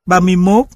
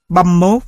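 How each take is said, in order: First: Said in the usual way. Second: "băm mốt" contracted into two syllables; contracted "băm" before "mốt"; dropped sounds. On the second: Shown as a demonstration. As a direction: squeeze "ba mươi" into a single "băm". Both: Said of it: "Hiện tượng bớt âm".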